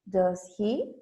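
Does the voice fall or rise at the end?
rise. The pitch rises at the end of the tag. The speaker does not know the answer. "And we go up"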